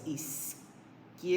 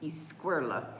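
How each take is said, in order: First: The start does not sound like squirrel. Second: The start sounds like the English word squirrel. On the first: The speaker calls it right. "but it's izquierda" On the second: The speaker calls it wrong. "I said izquierda, because I'm thinking squirrels"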